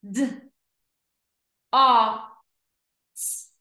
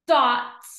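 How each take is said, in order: First: D, o, s as separate letter sounds; long gaps between D, o and s; sounded out slowly. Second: DOT joined in one go; blended word. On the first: Teacher pointing to each dot, D-o-s sounded out. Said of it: "read each word slow". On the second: Teacher blending for pupils, DOT as one word. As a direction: say DOT whole and firmly. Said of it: "read each word fast". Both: Shown as a demonstration.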